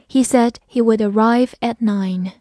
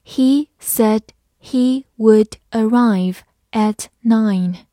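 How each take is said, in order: First: Said in the usual way. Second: Slow, careful word-by-word read. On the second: Shown as a demonstration. Teacher reading slowly for students. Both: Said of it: "慢慢来读".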